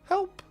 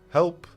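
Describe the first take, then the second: First: It is said in a higher voice. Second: It is said in a deeper voice.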